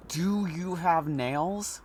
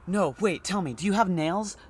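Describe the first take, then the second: First: Very slow, drawn "Do you have nails?" rising; slow repeat. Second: Higher, eager question through the door; suddenly curious, calling through the door; man behind door. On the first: Man behind the door slowly repeating his odd question to the doctor. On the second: Man behind the door asking the doctor about nails, high and eager. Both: Acted.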